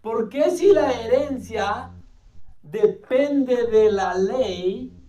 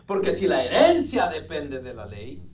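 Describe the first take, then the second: First: It is said with question intonation. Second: It is said with statement intonation.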